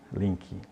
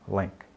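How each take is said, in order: First: It is pronounced in a Portuguese-influenced way. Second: It is pronounced the way native English speakers say it. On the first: The speaker calls it wrong. "Não é link" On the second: The speaker calls it right. "a pronúncia correta de link"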